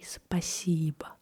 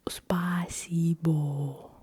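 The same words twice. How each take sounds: First: The final vowel is a weak, reduced uh. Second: The final vowel is a full, clear o. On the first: The speaker calls it right. "I say спасибо. ... I do not really pronounce the o at the end" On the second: The speaker calls it wrong. "I do not say"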